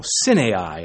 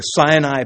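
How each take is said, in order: First: "Sinai" drawn into three syllables, SIN-ay-eye; alternative pronunciation. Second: "Sinai" in the common English way; usual pronunciation. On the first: Preacher showing how some pronounce it, alternative "Sinai". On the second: Preacher naming the peninsula, usual pronunciation of "Sinai". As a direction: say "Sinai" as two syllables, SIGH-nye. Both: Shown as a demonstration. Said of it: "as some like to pronounce it".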